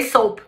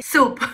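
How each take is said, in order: First: "soap" dito com ou, soup trocado por sabão; soap errado. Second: "soup" dito como em inglês, com u longo, sup; soup certo. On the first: Retold or imitated. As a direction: pronuncie "soap" com o ditongo ou, a troca engraçada. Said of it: "eu falei soap". ("soap" com ou, imitando o erro) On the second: Shown as a demonstration. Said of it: "Ao invés de falar que eu comi soup". ("soup" com u longo, a palavra certa)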